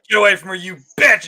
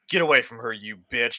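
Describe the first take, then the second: First: It is said with strong emotion. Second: It is said flat and cold.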